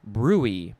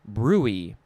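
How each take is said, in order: First: It is said as two syllables, brewy. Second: It is said as two syllables, brewy.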